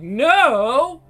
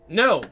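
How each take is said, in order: First: The no sounds soft and hesitant. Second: The no sounds blunt and firm. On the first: The refusal is unsure and could be negotiated. The speaker calls it wrong. "you don't say like" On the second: The refusal is final and not open to debate. The speaker calls it right. "Straight up"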